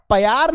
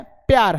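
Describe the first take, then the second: First: "प्यार" split as pe-yaar; wrong pyaar. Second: "प्यार" said quick and clipped; correct pyaar. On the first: Teacher warning pupils off the wrong pe-yaar. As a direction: stretch the p of "प्यार" into its own syllable. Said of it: "ये प्यार नहीं है". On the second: Teacher giving pupils the correct quick pyaar. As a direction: cut the p of "प्यार" short into the y. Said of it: "प्यार है". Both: Shown as a demonstration.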